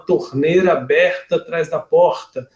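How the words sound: It is said in a northern Brazilian accent. The speaker is from the north of Brazil. "Se ela é um pouco mais para cima, lá do, no norte, vai falar"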